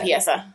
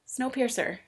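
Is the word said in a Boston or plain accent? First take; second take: Boston; plain. First: It is said in a Boston accent. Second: It is said in a plain, unmarked accent.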